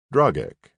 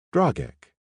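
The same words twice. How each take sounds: First: His own name stated flat and firm, "Dragek" with a falling end; just state the name "Dragek", no fuss; matter-of-fact. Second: Put-on "Dragek" said higher, tasting the strange name with a human accent. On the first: Dragek introduces himself to the woman, matter-of-fact. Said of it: "he said matter-of-factly". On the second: Woman repeats the alien's name, in her human accent. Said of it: "She shaped his name with her human accent". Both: A narrator's reading.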